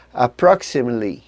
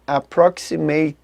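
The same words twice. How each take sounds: First: "Approximately" with the penultimate syllable gone, like "aproksimli"; dropped syllable. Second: "approximately" with all syllables spelled out, Portuguese style; every syllable sounded. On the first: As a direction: swallow the "-ate-" in "Approximately". ("Approximately" engolindo a penúltima sílaba) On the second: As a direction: say "approximately" as "a-pro-xi-ma-te-ly", each syllable full. ("approximately" pronunciado com todas as sílabas) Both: Shown as a demonstration. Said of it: "a penúltima sílaba desaparece".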